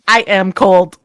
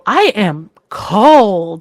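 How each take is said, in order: First: It is said flatly, with little inflection. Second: It is said with lively, varied intonation. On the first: The speaker calls it wrong. "But if it's just like" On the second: The speaker calls it right. "I can see that sentence if you go"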